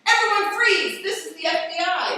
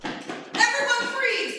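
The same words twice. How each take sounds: First: Much louder shouted order, higher; police command. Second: High, loud, slow barked order; police command. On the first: FBI agent bursting into the right room, shouting. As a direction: storm in and own the room. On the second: FBI agent bursting into the room, loud command. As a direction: burst in and take control. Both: Acted.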